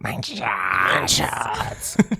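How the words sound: It is said in a rough, throaty voice. The speaker calls it right. "Das geht über den Hals"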